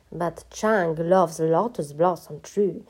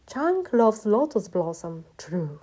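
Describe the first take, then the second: First: Slow, cross recital of someone's slogan; indignant quoting. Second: Slow, raised slogan reading, dropping on the last word; slow, declaimed read-out of a love slogan; graffiti read aloud. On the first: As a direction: quote the graffiti back as an accusation. Master quotes the slogan back crossly. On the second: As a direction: spell out the big-letter slogan grandly. Narrator reads out big-letter graffiti. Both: A narrator's reading.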